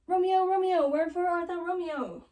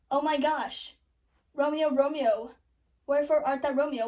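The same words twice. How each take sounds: First: High, loud mock-theatrical calling; hammed-up balcony plea, pitched high; Juliet calling out. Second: Loud, hammed-up lament; loud, slowed mock-tragic calling; Juliet's mock dismay. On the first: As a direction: call for Romeo like a hammed-up balcony heroine. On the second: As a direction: cry out for Romeo in mock shock, near your own pitch. Juliet finds Romeo dead, acted.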